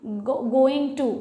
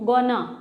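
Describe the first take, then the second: First: Both words are said fully and separately. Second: Shortened into one word, gonna.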